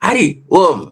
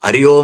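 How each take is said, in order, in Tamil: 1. இது இரண்டு தனிப் பகுதிகளாகப் பிரித்துச் சொல்லப்படுகிறது. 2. இது ஒரே சேர்ந்த சொல்லாகச் சொல்லப்படுகிறது. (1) "அரி ஓம் போச்" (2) "அரியோம் என்பதை"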